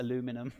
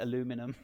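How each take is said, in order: First: It is said with an American pronunciation. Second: It is said with an American pronunciation.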